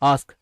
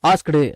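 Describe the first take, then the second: First: It ends on the k with no t. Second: It ends with a t plus extra vowel. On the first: The speaker calls it right. "ஆஸ்க் அப்படின்னு பேசுங்க" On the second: The speaker calls it wrong. "ஆஸ்க்டு அப்படின்னு பேச வேண்டாம்"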